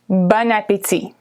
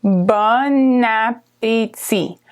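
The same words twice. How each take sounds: First: Said in the usual way. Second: "Bon appétit" drawn out slowly with the liaison; slow demonstration. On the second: Shown as a demonstration. Teacher to learners, slow model of the phrase. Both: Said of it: "and it said bon appétit".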